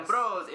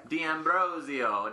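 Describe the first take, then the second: First: "D'Ambrosio" said quickly and higher, sure of it; confident repeat. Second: "D'Ambrosio" sounded out slowly, syllable by syllable; careful pronunciation. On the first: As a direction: toss off "D'Ambrosio" at a brisk pace. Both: Shown as a demonstration. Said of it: "I'm gonna screw up your last name".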